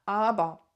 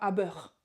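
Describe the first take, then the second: First: The word ends in an open 'ah' sound. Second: The word ends in a clear 'er' sound. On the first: The speaker calls it right. "je vais à la fin mettre presque un A" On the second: The speaker calls it wrong. "et non pas aber"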